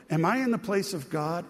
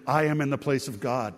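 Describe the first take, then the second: First: "Am I in the place of God?" asked as a question. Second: "I am in the place of God." stated, falling at the end; statement. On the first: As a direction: ask "Am I in the place of God?", pitch slightly lifted. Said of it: "every English translation says it as a question". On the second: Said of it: "it can also be traded, translated". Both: Shown as a demonstration.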